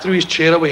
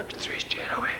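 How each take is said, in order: First: Said in the usual way. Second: Breathy whispered repeat. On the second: Shown as a demonstration. Retelling the tiger act to the audience, whispered. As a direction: hush it like the tent went silent.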